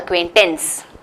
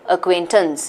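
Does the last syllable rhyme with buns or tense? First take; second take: tense; buns. First: The last syllable rhymes with tense. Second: The last syllable rhymes with buns. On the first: The speaker calls it wrong. "not acquaintance" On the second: The speaker calls it right. "It's pronounced like buns"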